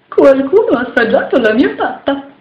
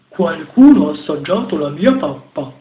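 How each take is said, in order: First: It is said in a half-big, medium voice. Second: It is said in a very big, deep voice.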